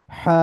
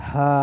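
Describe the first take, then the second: First: হা with a constriction in the throat; heavy, rasped Arabic হা, partly blocked; heavy obstructed হা. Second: হা let out freely, unobstructed; light Arabic হা with loose breath; light released হা. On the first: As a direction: squeeze the breath through on হা. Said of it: "এটার মধ্যে একটু বাধা আছে". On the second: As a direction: release an easy, open h on হা. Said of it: "এটা একটু ছেড়ে দেওয়া". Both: Shown as a demonstration.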